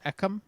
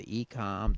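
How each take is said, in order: First: "ecom" said as EK-um; short E pronunciation. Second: "ecom" said as EE-kahm; long E pronunciation. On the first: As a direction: open "ecom" with a short EH, weak second syllable. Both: Shown as a demonstration. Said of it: "or is it ecom?".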